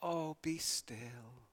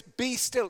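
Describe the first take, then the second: First: Slow, soft, limp "Oh, be still"; a feeble wistful "Oh, be still", not an order; "Oh, be still" drawn out weak and gentle; mock soft plea. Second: Firm "Be still" with weight on "be", falling; "Be still" given as a command. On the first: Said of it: "It's not a, "Oh, be still". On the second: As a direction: say "Be still" as an order. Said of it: "It's not a, "Oh, be still." It's a command". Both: Shown as a demonstration.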